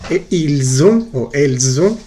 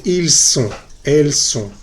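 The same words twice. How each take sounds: First: Ils ont and elles ont said slowly with a buzzing Z link. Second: Ils sont and elles sont with a sharp unvoiced S. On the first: Teacher showing students the liaison, slow buzzing Z. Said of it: "la última S con la O". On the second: Teacher contrasting the liaison for the class, crisp S. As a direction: hiss the S in ils sont, no buzz. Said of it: "no vibra". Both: Shown as a demonstration.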